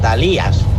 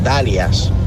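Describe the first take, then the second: First: The stress is on the second syllable. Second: The stress is on the first syllable. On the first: The speaker calls it right. "es Dalías, con acento en la I" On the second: The speaker calls it wrong. "No es Dalias, ... no en la A"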